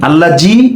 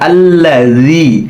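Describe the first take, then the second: First: The middle consonant is a 'z' sound. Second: The middle consonant uses the tongue between teeth. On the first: The speaker calls it wrong. "আল্লাহ জি এভাবে হবে না" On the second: The speaker calls it right. "জিব্বাটা এখানে লাগাতে হবে"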